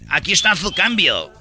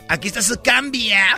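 First: It is said with a Spain Spanish accent. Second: It is said in an effeminate put-on voice.

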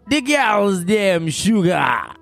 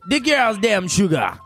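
First: It is said more slowly. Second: It is said at normal, faster speed.

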